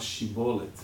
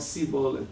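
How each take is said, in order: First: The word begins with an 'sh' sound. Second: The word begins with an 's' sound. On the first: This is the standard pronunciation of the word. The speaker calls it right. "em vez de falar shibolet" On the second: The speaker cannot pronounce the 'sh' sound. The speaker calls it wrong. "eles falavam sibolet, que eles não conseguiam pronunciar"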